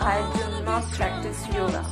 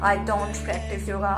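First: The verb is said in full as two words. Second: The verb is contracted to one short syllable. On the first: The speaker calls it right. "you can say I do not practice yoga" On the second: The speaker calls it wrong. "आप ये नहीं बोलेंगे"

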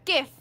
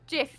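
First: The word begins with a hard G sound. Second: The word begins with a J sound. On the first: The speaker calls it right. "It's GIF. because a Jiffy bag is something totally different" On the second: The speaker calls it wrong. "said it wrong"

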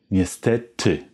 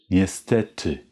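Both takes have the same delivery.

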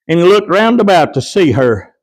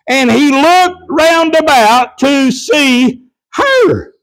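First: It is read at a normal, quicker pace. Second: It is read slowly.

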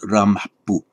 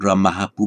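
First: No echo vowel follows the final h. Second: A short echo vowel follows the final h. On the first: This is how it sounds in running speech. The speaker calls it right. "In running speech, you wouldn't get that shadow a" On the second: This is how the word sounds in isolation. The speaker calls it wrong. "Not ramah pu"

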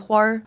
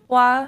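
First: It ends with a curled r, Beijing-style. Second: It ends plainly without an r sound.

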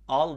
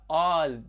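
First: The vowel is said short. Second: The vowel is said long. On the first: The speaker calls it wrong. "al değil" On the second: The speaker calls it right. "uzun okutur"

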